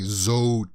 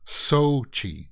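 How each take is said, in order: First: The name begins with a Z sound. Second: The name begins with an S sound. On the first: The speaker calls it wrong. "It looks like it would be" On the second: The speaker calls it right. "Like they say it's S O and then Chi"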